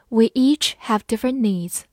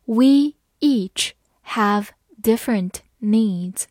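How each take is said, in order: First: Said in the usual way. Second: Slow, word by word; slow and clear, each word apart; slow reading. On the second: Shown as a demonstration. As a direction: read it slowly for learners. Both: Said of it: "好，慢慢来读。".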